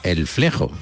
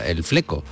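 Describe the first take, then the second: First: The x is pronounced as a throaty j sound. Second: The x is pronounced as a plain k. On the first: This is how it would be said in Mexico. "si se emitiera en México, diríamos el flejo, porque la X sería pronunciada como el flejo" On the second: Some friends say it this way. "Hay amigos que dicen el fleco. Bueno, pues está bien"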